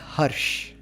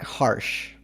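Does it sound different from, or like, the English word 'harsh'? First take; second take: different; like harsh. First: It sounds different from the English word 'harsh'. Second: It sounds like the English word 'harsh'. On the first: This is the speaker's actual name. The speaker calls it right. "my name is Harsh" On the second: This is the word meaning rough. The speaker calls it wrong. "not Harsh ... not the word meaning rough"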